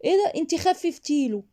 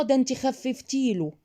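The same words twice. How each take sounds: First: High-pitched mock surprise; cold, obnoxious reply. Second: Slow, raised-pitch reproach; critic's accusation. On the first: Shown as a demonstration. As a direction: toss it back annoyingly, feigning surprise. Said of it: "فانت ردي برود سمجه ورزله". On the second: Acted. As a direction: play someone blaming a mother, drawn out. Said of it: "اي حد هيقول".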